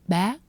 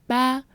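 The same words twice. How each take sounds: First: The pitch is high and rises. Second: The pitch stays level throughout. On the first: "but a high rising tone" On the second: "It's like ba"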